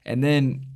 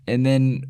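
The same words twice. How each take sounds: The two takes are said the same way.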